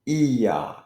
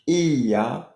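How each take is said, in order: Both takes have the same delivery.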